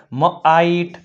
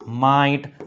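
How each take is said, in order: First: મ આઈટ split after the consonant; teacher breaking મ આઈટ into parts; sounded out. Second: Said in the usual way. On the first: Shown as a demonstration. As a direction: say મ alone, then આઈટ. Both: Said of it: "લખાય અથવા વંચાય છે".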